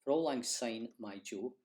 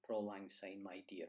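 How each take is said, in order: First: My jo said for the Scots dear. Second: Softer, with my dear at the end; English version with dear. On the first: Teacher giving the proper Scots line, my jo. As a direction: end on my jo. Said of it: "the proper word to use". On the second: Teacher showing the anglicised chorus, my dear. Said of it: "they often replace my jo with dear". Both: Shown as a demonstration.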